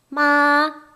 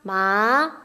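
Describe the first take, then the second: First: The pitch stays high and level. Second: The pitch rises from mid to high. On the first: "일성" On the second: "이성"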